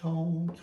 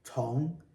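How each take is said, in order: First: The pitch stays high and level. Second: The pitch rises from middle to high. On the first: "These three are first tone" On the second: "This one is second tone"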